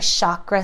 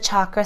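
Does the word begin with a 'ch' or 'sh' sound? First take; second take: sh; ch. First: The word begins with a 'sh' sound. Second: The word begins with a 'ch' sound.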